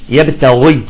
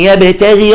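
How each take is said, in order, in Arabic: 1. صوت gh مفخم وفيه تفخيم. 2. صوت gh مرقق، غير مفخم. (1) "بعضهم يفخم الغين إذا كانت مكسورة" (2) "هنا لا تفخم الغين إذا كانت مكسورة"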